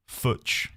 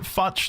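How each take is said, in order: First: The vowel rhymes with 'Butch'. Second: The vowel rhymes with 'much'. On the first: "like Butch, but with an F?" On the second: "What if you don't pronounce it Futch"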